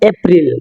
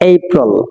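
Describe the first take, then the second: First: The first vowel is a short plain 'a'. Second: The first vowel is a gliding 'ay'. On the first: The speaker calls it wrong. "এখানে এপ্রিল হবে না" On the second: The speaker calls it right. "আমরা এ এ বলি না, ... এই বলি"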